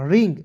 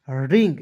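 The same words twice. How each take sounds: First: Said in the usual way. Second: ring dropped low and final; closing model word. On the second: Shown as a demonstration. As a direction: land ring low to close it. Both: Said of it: "आर I N G".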